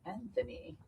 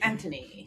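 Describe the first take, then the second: First: The name is said with an American pronunciation. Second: The name is said with a British pronunciation. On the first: "In English, here in the U S, it's" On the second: "In England, it's"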